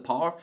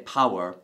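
First: The word sounds like one syllable, 'par'. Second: The word is said with two syllables, 'pow-er'. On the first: "Sorry that I said it in a funny way. I say that's like something in a game of golf" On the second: "You might say power"

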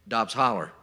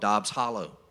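First: The last word ends in an 'er' sound. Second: The last word ends in an 'oh' sound.

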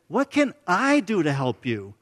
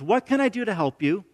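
First: It sounds helpless, like a rhetorical question. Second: It sounds like a sincere offer of help.

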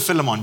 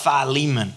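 First: The name is pronounced the Zimbabwean way. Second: The name is pronounced the American way. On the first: This is the form used at home. "I prefer Philemon because that's kind of what we go with in Zim" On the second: This is the form Americans favour. "Americans love Philemon"

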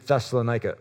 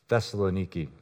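First: The name ends with a 'ka' sound. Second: The name ends with a 'kee' sound. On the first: The speaker calls it wrong. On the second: The speaker calls it right.

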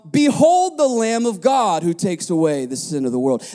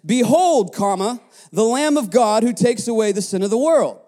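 First: There is no break after 'Behold'. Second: There is a break after 'Behold'.

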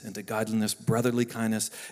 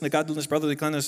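First: It is said at a slower pace. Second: It is said at a faster pace.

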